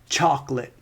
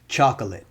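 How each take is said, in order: First: The word is said with two syllables. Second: The word is said with three syllables. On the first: "then we move to two syllables" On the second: "That's three syllables"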